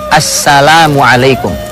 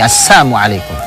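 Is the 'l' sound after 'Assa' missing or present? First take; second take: present; missing. First: The 'l' sound after 'Assa' is clearly pronounced. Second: The 'l' sound after 'Assa' is left out. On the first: It wishes peace upon you. The speaker calls it right. "Ucapkan dengan benar" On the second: It wishes death upon you. The speaker calls it wrong. "Assalamu hilang, hilang lamnya"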